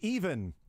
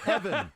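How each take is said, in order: First: The first vowel is a long E sound. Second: The first vowel is a short E sound. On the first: The speaker calls it wrong. "Oh, sorry, I thought that we were going with long E's here" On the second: The speaker calls it right.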